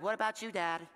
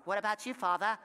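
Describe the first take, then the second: First: Said in the usual way. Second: Kid's mock-formal accent on "Father"; lightly hammed-up accent; put-on accent. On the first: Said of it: "That's how my kids talk". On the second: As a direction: imitate the kid in a mock accent. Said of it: "where you got your accent from".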